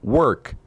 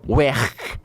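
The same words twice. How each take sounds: First: It is said in a standard English accent. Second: It is said in a Liverpool accent. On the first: "ao invés de falar work" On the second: "eles falam work"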